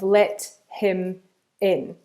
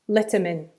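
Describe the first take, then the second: First: The words are said slowly and separately. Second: The words are said fast and linked together.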